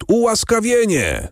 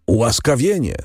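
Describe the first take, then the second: First: „ułaskawienie” called out much higher, rising over the crowd; crowd calling out. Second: Crowd calling. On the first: Crowd crying „ułaskawienie” at the execution, high call. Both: A narrator's reading. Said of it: "zawołał lud".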